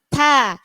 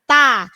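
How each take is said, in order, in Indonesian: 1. Bunyi t ada sedikit hembusan napas. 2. Bunyi t-nya biasa, tanpa hembusan napas. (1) "ta ada hembusnya sedikit" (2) "jangan ta"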